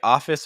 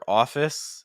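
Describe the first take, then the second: First: The first vowel is an open 'ah' sound. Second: The first vowel is a rounder 'aw' sound.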